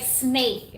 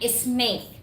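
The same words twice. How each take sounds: First: The word begins directly with an s sound. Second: The word begins with an e sound before s. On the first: The speaker calls it right. "just like s- like snake" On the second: The speaker calls it wrong. "not snake"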